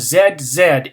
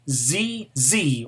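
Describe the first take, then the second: First: The letter is named zed, British style. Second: The letter is named zee, American style.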